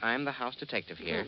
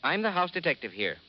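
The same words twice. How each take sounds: First: It is said timidly, without firmness. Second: It is said firmly and with authority.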